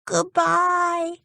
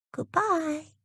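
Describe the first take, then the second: First: Much higher, drawn-out called "Goodbye" as he rides off; a boy's mild mock shout of "Goodbye". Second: Put-on much higher, softer gentle farewell from the mermaid girl; a sweet lightly voiced sea girl's "Goodbye"; Pearl calling goodbye. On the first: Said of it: "shouted Dick". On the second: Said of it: "called Pearl".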